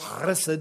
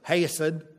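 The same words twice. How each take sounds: First: It starts with a harsh throaty sound. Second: It is said with a drawn-out Southern accent. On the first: "with the guttural chesed" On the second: "like my professor, ... That would be the southern way"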